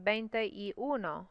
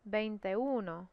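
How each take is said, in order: First: The three words are said separately. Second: The words are slurred into one word. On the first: The speaker calls it wrong. "You would think it would be" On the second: The speaker calls it right. "they slur it all together"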